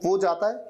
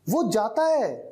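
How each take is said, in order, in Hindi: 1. यह सामान्य, सपाट तरीके से कहा गया है। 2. यह ज़्यादा ज़ोर और बल देकर कहा गया है। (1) "ऐसे ही कहा जाता है ना" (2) "लेकिन अगर थोड़ा जोर देना हो, जैसे"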